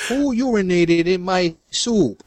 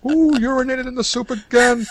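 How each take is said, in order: First: Slow, hammed-up Brooklyn accent; a weak stab at Brooklyn, drawn out; poor Brooklyn accent. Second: High, crying mock yell; outraged shout. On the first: Pretend chef complaining about his soup in a poor Brooklyn accent. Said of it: "That was a poor Brooklyn accent". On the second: Pretend chef yelling at his kitchen staff, high and shrill. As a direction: shriek it like a furious cook.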